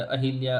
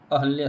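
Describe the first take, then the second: First: अहिल्या with an added i after ह; teacher showing faulty अहिल्या, hi in the middle; mispronounced अहिल्या. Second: अहल्या with no i after ह; teacher's correct अहल्या, no इ sound; correct pronunciation अहल्या. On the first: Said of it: "अहिल्या अशुद्ध है". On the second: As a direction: say अहल्या, ह running into ल्या. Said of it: "अहल्या शुद्ध है". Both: Shown as a demonstration.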